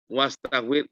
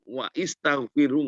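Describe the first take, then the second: First: Wa links straight into staghfir, no vowel between. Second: Wa is followed by a separate i sound. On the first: The speaker calls it right. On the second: The speaker calls it wrong.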